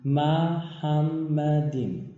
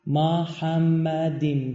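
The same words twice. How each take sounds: First: محمدیم drawn out very slowly, Hebrew style, doubled m; Hebrew pronunciation. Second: محمدیم stretched very slowly with a doubled m. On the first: Preacher showing the audience the Hebrew word, slow Hebrew pronunciation. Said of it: "عبریش تلفظش اینه". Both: Shown as a demonstration.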